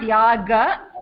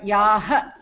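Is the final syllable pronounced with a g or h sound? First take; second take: g; h. First: The final syllable starts with a g sound. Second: The final syllable starts with an h sound. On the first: The speaker calls it wrong. "It's not Yaga" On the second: The speaker calls it right. "but Yaha"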